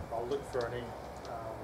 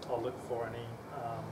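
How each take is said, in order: Both takes have the same delivery.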